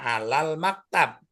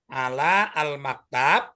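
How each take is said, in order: First: Ala and al merge into one word, alal. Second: Ala and al are said as separate words. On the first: This is how it is read aloud. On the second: This is how it is written.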